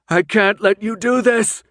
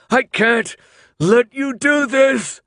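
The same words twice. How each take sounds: First: High, loud desperate yell; frantic protest yelled out. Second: Very high, loud, slow drawn-out scream; anguished protest screamed. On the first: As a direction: yell against the others. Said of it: "Thomas yelled". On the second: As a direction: stretch out a desperate scream. Thomas fighting them, protesting. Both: Acted.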